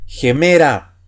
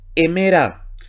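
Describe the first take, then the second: First: The word starts with a harsh breathy sound. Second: The word starts directly with a vowel. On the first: The speaker calls it right. "se pronuncia como la J" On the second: The speaker calls it wrong. "¿y por qué no es hemera?"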